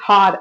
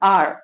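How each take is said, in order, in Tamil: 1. இந்த வார்த்தை h ஒலியுடன் தொடங்குகிறது. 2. இந்த வார்த்தை உயிர் ஒலியுடன் தொடங்குகிறது. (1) "ஹார் அப்படின்னு சொல்ல மாட்டோம்" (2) "இட்ஸ் ஆர்"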